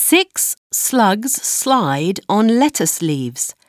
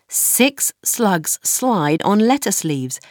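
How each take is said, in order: The two takes are said the same way.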